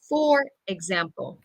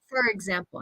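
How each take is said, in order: First: The vowel in 'for' is a full vowel. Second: The vowel in 'for' is reduced to schwa. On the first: "instead of" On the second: "with my accent and schwa, I say fur"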